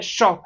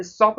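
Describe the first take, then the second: First: "शॉप" with a full sh; hushing sh opening on "शॉप"; correct SH sound. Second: "शॉप" begun with s, as sop; s in place of sh in "शॉप"; wrong S sound. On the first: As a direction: say "शॉप" with sh, not s. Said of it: "ये शॉप है". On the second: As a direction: say "शॉप" as सॉप. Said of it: "ये शॉप नहीं है". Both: Shown as a demonstration.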